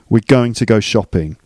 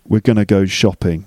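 First: Going to is said fully, each word clear. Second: Going to is reduced to gonna. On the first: "I think that you should first start saying going to" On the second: "eventually you can graduate to"

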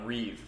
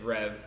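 First: The vowel is a long 'ee' sound. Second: The vowel is a short 'e' sound. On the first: The speaker calls it wrong. "I was calling it Reeve forever" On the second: The speaker calls it right. "he was like, it's Rev"

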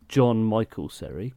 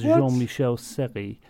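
First: The first name has an English pronunciation. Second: The first name has a French pronunciation. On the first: The speaker calls it wrong. "not John Michael Seri" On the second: The speaker calls it right. "surely his name is Jean-Michel Seri"

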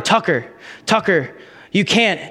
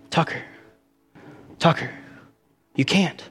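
First: It is said loudly. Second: It is said quietly.

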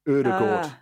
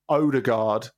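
First: The first vowel is a front rounded vowel. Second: The first vowel is a plain back O. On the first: The speaker calls it right. "it's Odegaard. I think the umlauted O at the beginning is very, very important" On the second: The speaker calls it wrong. "So it's not Odegaard"

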